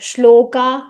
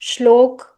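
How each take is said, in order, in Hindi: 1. अंतिम स्वर लंबा खींचा जाता है। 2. अंत बिना किसी अंतिम बल के कटा हुआ बोला जाता है। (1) "आ की मात्रा लगाएंगे तो फिर वो लंबा खींचेगा" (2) "ये हिंदी वाला हो गया"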